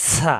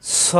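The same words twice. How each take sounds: First: "সা" light, with open a vowel; thin letter. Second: "স" heavy, with rounded o-like vowel; heavy letter. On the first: Teacher asks students to notice the contrast, thin "সা". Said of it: "জিহ্বা নিচের দাঁতে চাপ দিয়ে". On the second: Teacher asks students to notice the contrast, heavy "স". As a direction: say "স" full-mouthed after the hiss. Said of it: "সবাই খেয়াল করুন". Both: Shown as a demonstration.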